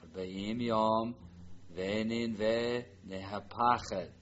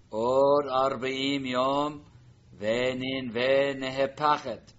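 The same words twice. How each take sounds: First: Slow read-through. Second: Loud, slow proclamation; prophet's proclamation. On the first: Teacher repeats Jonah's message for the class, slow and calm. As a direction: say it slowly and steadily. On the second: Teacher reads Jonah's warning to Nineveh, loud and slow. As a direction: boom it out like a prophet warning the city. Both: Shown as a demonstration. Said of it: "Now the line. Jonah's message".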